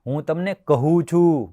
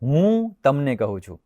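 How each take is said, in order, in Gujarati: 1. છેલ્લા ક્રિયાપદ પર ભાર છે. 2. પહેલા શબ્દ પર ભાર છે. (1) "કહું છું એટલે એના સિવાય કશું નહીં" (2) "હું એટલે બીજું કોઈ નહીં"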